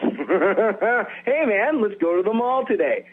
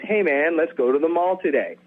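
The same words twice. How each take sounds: First: It starts with a laugh, laughing through it. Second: It is said plainly, without a laugh.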